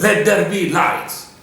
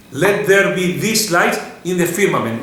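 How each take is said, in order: First: Weight on "let there be lights"; stress on LET THERE BE LIGHTS. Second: Weight moved onto "in the firmament"; stress on IN THE FIRMAMENT. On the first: Teacher showing the expected emphasis, stress on "let there be lights". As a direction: lean on "let there be lights" as the key phrase. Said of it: "the word that you would emphasize". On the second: Teacher re-reading the verse, stress on "in the firmament". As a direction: point up "in the firmament" as the place. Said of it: "I want to emphasize a different word". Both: Shown as a demonstration.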